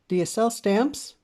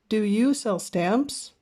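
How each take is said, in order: First: The question is said at a fast pace. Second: The question is said at a slower pace.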